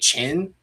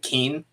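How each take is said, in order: First: The name begins with a 'ch' sound. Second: The name begins with a hard 'k' sound. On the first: The speaker calls it right. "but it's actually chin" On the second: The speaker calls it wrong. "I always thought it was like king"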